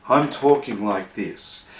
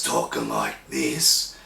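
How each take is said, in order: First: Said in the usual way. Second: Much lower, pushed down on the cords; heavy low throat pressure; low pressed voice. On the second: Shown as a demonstration. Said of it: "that's just basically full-on pressure on the vocal cord".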